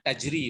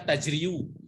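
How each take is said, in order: First: The word ends with a plain 'ee' sound. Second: The word ends with a full 'yu' syllable. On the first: This is the lightened form actually used. The speaker calls it right. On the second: This is the full underlying form, considered too heavy. The speaker calls it wrong.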